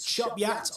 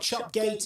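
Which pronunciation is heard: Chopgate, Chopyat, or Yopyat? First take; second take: Chopyat; Chopgate. First: It starts with 'ch' and ends with 'yat'. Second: It starts with 'ch' and ends with 'gate'. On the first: The speaker calls it right. "it's Chopyat" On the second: The speaker calls it wrong. "it's not Chopgate"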